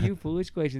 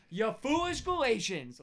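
First: It is said in a sweet, gentle tone. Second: It is said in a harsh, angry tone.

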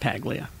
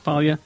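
First: The G in the name is pronounced. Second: The G in the name is silent. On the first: The person does not deserve the silent letter. "Make it Paglia. You don't deserve the silent G" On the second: This is the name's real pronunciation. "It's Paglia"

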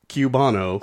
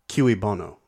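First: The first word is said like 'cue'. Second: The first word is not said like 'cue'. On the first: The speaker calls it wrong. "if you were a stagehand, you would cue [name]" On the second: The speaker calls it right. "I think it's in the pronunciation where you're getting mixed up"

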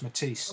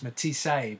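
First: The final e is silent, with no extra syllable. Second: The final e is sounded as an extra syllable. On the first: "I'm not sure if the E is a sight, so it's just Matisse" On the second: "You often hear American people will refer to him as Matisse"

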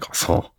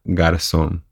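First: The name is said with a French accent. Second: The name is said with a Uruguayan Spanish accent. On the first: The speaker calls it wrong. "it's not French, so I can't be like" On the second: The speaker calls it right. "so say it with a Uruguayan"

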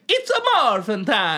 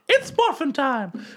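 First: It is said in a Mario voice. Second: It is said in a Mickey Mouse voice.

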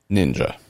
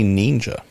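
First: The first syllable has a short i vowel. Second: The first syllable has a long ee vowel. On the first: "but nin" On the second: "Not neen, as I say it"

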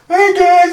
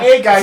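First: It is said in a put-on imitating voice. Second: It is said in a plain normal voice. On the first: Someone else is being imitated. The speaker calls it wrong. "you don't have to do the voice" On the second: The words are simply reported. The speaker calls it right. "You could have just gone"

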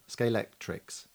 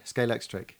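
First: The name ends with a final s sound. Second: The name ends without a final s sound. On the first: This is what the product is actually called. The speaker calls it right. "which is harder to say" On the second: This is the common way people say the name. The speaker calls it wrong. "which is what everyone says"

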